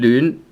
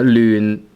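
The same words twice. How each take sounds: First: The word is said with the second tone. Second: The word is said with the fifth tone. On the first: "second tone" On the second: "which is fifth tone"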